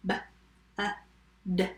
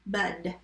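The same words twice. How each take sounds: First: "B-U-D" as three separate sounds with gaps; sounded out. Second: Said in the usual way. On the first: Shown as a demonstration. Teacher tapping bud for spellers, sounded out. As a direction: tap out "B-U-D" sound by sound. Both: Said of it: "Tap bud".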